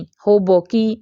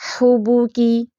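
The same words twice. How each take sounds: First: Slow "ہو بو کی" as ho-bo-kee; majhool mispronunciation. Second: "ہو بو کی" as hoo-boo-kee; correct rounded pesh. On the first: Teacher warning against the wrong reading, majhool o. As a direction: open both vowels of "ہو بو کی" to o, slowly. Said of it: "ہو بو کی نہیں". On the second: Teacher modelling for practice, rounded oo. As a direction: round both vowels of "ہو بو کی" to oo. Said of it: "ہم نے اس کا صحیح تلفظ پڑھا". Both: Shown as a demonstration.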